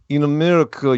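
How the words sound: It is said in a put-on Russian accent.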